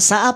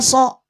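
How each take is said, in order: First: The vowel sounds like a thin, open a. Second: The vowel sounds like a thick, rounded o. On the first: The speaker calls it wrong. "Kalau hurufnya tipis maka ketika dia fathah dibaca bunyi vokal A" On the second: The speaker calls it right. "So ya"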